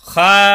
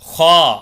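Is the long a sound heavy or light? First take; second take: light; heavy. First: The long a sound is light. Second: The long a sound is heavy. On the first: The speaker calls it wrong. "அப்படி படிக்கக்கூடாது" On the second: The speaker calls it right. "அலிஃபை படிக்கும் பொழுது கனமாக படிக்கணும்"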